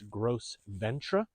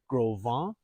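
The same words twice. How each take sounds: First: The name is said in a plain English way. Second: The name is said in a French-like way.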